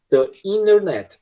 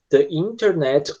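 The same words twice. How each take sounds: First: "internet" said slowly as "innernet"; T swallowed. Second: "internet" with its first T sounded, said slowly; T pronounced. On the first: Teacher offering the alternative American form, "internet" without T. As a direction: drop the T after N in "internet", American style. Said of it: "Eles engolem esse som de T". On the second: Teacher offering the first acceptable form, "internet" with T. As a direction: say "internet" slowly, keeping the T after N. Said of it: "As duas formas". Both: Shown as a demonstration.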